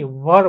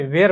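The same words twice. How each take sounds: First: વર with a short central "uh" vowel; teacher's "var" for were, as વર; corrected pronunciation. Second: વેર with a long "ay" vowel; the village's "ver" for were, as વેર; common mispronunciation. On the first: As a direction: say વર like "vur", no "ay" sound. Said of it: "કે આને વેરની વર બોલાય". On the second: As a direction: say વેર like "vair". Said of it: "આખું ગામ આને વેર બોલે છે". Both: Shown as a demonstration.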